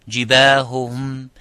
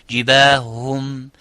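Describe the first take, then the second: Both takes have the same delivery.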